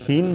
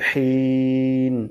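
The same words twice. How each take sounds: First: The h is a light, soft breath. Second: The h is a strong, throaty breath. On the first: The speaker calls it wrong. "হিন বলা যাবে না ... হিন বললে কিন্তু গোলহা হয়ে যাবে" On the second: The speaker calls it right. "শেষে বলতে হবে হিন"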